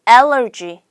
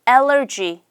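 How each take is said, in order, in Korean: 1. 영어식으로 발음하면 세 음절이에요. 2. 영어식으로 발음하면 세 음절이에요.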